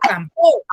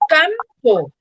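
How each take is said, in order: First: The stress is on the second syllable. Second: The stress is on the first syllable. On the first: The speaker calls it wrong. "yo no digo campo ... no tiene sentido" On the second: The speaker calls it right. "Yo digo campo"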